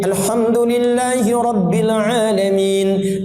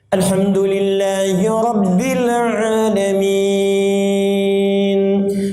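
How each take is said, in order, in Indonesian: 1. Dibaca cepat dengan mad pendek. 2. Dibaca pelan dengan mad panjang. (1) "Hadar itu bacaan cepat tapi tajwidnya terpenuhi semua. Jadi kan dua harakat" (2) "tiwal itu tiga detik, enam harakat"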